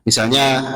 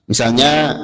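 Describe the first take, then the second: Both takes have the same delivery.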